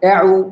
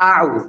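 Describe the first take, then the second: First: The vowel glides from an e-like sound. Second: The vowel is a clear, wide open a. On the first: The speaker calls it wrong. "এআউ যেন না হয়ে যায়" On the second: The speaker calls it right. "মুখ উপরের দিকে খুলবেন আউ"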